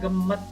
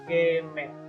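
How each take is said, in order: First: The e vowel is a weak, reduced e. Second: The e vowel is a clear, open e. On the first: The speaker calls it right. "E-nya itu tidak ada tanda petiknya" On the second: The speaker calls it wrong.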